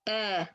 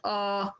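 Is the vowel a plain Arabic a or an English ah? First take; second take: Arabic a; English ah. First: The vowel is a plain Arabic a sound. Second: The vowel is an English-style ah sound. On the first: The speaker calls it right. "We have a sound in Arabic" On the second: The speaker calls it wrong. "not ah"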